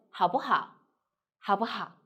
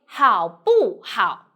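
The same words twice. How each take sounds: First: 好不好 quick and joined, 不 short and light; light neutral middle. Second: 好不好 slow and loud, each syllable separate with full tone; full original tones. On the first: Teacher showing the comfortable rhythm, 好不好 flowing with a light 不. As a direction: run 好不好 together with barely touched 不. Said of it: "So we say". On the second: Teacher showing the strange direct way, 好不好 in heavy full tones. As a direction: punch out 好, 不, 好 one by one. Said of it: "If you directly say". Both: Shown as a demonstration.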